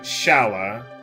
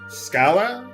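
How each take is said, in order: First: The name begins with an 'sh' sound. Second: The name begins with an 'sk' sound. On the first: "Some people like to pronounce it Shala" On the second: "don't tell me I'm pronouncing that wrong"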